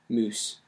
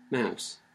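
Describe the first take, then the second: First: The vowel sounds like 'oo'. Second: The vowel sounds like 'ow'. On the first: This is the older pronunciation, from before the vowel shift. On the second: This is the modern pronunciation.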